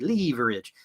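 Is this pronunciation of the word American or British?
British. The word is said with a British pronunciation. "But in Britain, we tend to say leverage"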